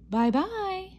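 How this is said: It is said in a middle-sized voice.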